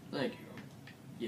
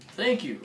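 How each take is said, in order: First: Soft unvoiced thanks; quiet. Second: High, loud thanks; excited. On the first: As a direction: whisper the thanks back. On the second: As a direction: squeal the thanks. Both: Real, not acted.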